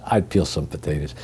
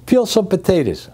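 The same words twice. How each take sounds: First: Said in the usual way. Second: Barked kitchen order. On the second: Retold or imitated. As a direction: order said higher and clipped, like a boss. Boss giving a kitchen order.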